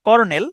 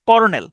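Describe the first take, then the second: First: The word begins with a 'ker' sound. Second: The word begins with a 'ker' sound.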